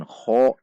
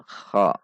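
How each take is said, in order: First: "kho" dengan vokal condong ke o; bibir dibulatkan. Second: "kha" dengan vokal a terbuka; bibir tidak bulat. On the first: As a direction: bulatkan bibir pada "kho". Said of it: "Tidak dengan". (contoh salah: "kho") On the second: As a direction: buka bibir pada "kha", jangan ke o. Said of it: "Tidak membulatkan bibir". (contoh benar: "kha") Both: Shown as a demonstration.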